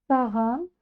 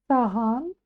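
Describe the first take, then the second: No difference in how they are said.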